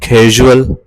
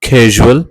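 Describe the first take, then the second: The two takes are said the same way.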